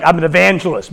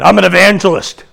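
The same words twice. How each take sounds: First: Said in the usual way. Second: Like a dirty word. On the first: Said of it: "So I backed off". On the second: Retold or imitated. Preacher owning up to unbelievers, evangelist said like a dirty word. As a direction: blurt it like a mock curse. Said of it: "like I said a dirty word".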